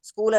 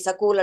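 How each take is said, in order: First: The s and k are said together. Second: A vowel is put between the s and k. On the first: "స్కూల్ అనడానికి" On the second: "సకూల్ అంటాడో"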